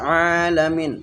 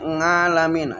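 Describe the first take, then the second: First: It begins with a throat sound, no ng. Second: It begins with an ng sound. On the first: "Kalau kita kan alamin" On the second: "mereka ngalamin, ada angnya itu"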